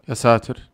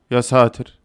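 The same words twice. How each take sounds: The two takes are said the same way.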